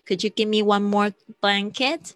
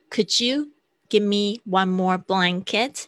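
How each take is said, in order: First: Said in the usual way. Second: Slow, careful request; slow model. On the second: Shown as a demonstration. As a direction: spell it out slowly for learners. (慢速示范) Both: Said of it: "你就说one more".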